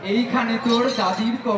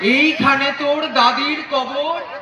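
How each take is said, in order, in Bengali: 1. লাইনটি পুরোটা হাসতে হাসতে বলা হচ্ছে। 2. এটা শান্ত, আবেগভরা কাব্যিক ভঙ্গিতে আবৃত্তি করা হয়েছে। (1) "তিনি ওরকম হাসছেন" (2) "খুবই সুন্দর, অসাধারণ করলেন"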